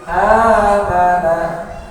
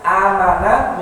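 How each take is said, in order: First: The a-vowel is drawn out long. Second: The a-vowel is kept short. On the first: The speaker calls it right. "maka a-nya dibaca panjang" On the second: The speaker calls it wrong. "yang sebelumnya amanahnya pendek, tidak dipanjangkan"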